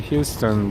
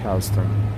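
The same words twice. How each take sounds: First: It is said the non-New York way. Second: It is said the New York way. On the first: New Yorkers do not say it this way. "in New York they don't say Houston" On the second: This is how New Yorkers say it. "they say Houston"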